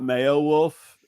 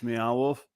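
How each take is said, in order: First: The first word sounds like 'mayo', rhyming with Beowulf. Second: The first word sounds like a cat's 'meow'. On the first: The speaker calls it wrong. "you don't pronounce it like the old uh the the nod to the literature uh Beowulf. It's not it's not Mayo Wolf" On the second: The speaker calls it right. "It's it's Meow Wolf"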